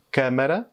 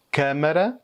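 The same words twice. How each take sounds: The two takes are said the same way.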